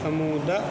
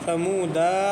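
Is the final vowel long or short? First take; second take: short; long. First: The final vowel is kept short. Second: The final vowel is drawn out long. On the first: The speaker calls it right. "बल्कि समूदा अलिफ के बगैर पढ़ना है" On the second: The speaker calls it wrong. "नहीं पढ़ना है"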